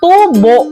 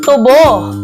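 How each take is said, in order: First: The stress is on the first syllable. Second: The stress is on the last syllable. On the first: It means profit gained from an investment. "Na may diing malumi" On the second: It means sugarcane, a tall grass plant. "Kung ito ay bibigkasin natin ng mabilis"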